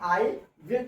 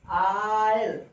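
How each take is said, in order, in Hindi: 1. यह दो पूरे शब्दों की तरह बोला जाता है। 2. यह एक छोटे संक्षिप्त शब्दांश की तरह बोला जाता है। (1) "फुल फॉर्म आई विल कहते हैं" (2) "संक्षिप्त कंट्रैक्शन के रूप में जो प्रोनाउंसिएशन करेंगे"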